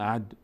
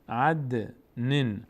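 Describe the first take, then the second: First: The d sound stops flat without a bounce. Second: The d sound ends with a slight echoing bounce. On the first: The speaker calls it wrong. "نمیگیم عد" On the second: The speaker calls it right. "مقداری در مخرجشون میلرزن"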